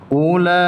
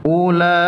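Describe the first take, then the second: The two takes are said the same way.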